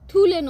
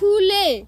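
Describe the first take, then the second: First: The word begins with a breathy 'th' sound. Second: The word begins with a breathy 'kh' sound. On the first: The speaker calls it wrong. "থুলে নয়" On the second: The speaker calls it right. "বলো খুলে।"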